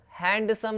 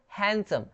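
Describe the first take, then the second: First: हैंडसम with the d sounded, hand-sum; wrong pronunciation. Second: हैंडसम as han-sum, d silent; correct pronunciation. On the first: Teacher showing the mistake, हैंडसम split as hand-sum. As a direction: voice a clear d in हैंडसम. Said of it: "हैंडसम नहीं". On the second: Teacher answering how to say it, हैंडसम without the d. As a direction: drop the d in हैंडसम. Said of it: "क्या बोलेंगे इसको". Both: Shown as a demonstration.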